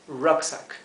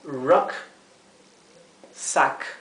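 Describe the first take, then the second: First: The word is said smoothly without a break. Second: A pause separates the two syllables.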